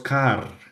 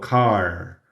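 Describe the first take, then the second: First: The r is pronounced like a Spanish r. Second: The r is pronounced like an American r. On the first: The speaker calls it wrong. "La R americana se convierte en una R en español. Ese es otro error muy común" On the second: The speaker calls it right. "sino car"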